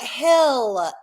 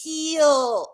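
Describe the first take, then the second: First: The vowel is short, like in 'hell'. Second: The vowel is long, like in 'heel'. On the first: The speaker calls it wrong. "It's not hell" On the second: The speaker calls it right. "It's heel"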